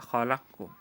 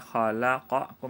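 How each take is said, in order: First: The q sound merges straight into the k. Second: The vowel after the q sound is kept. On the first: This is how the word is recited. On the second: This is the word as originally written. "Asalnya asal bacaannya"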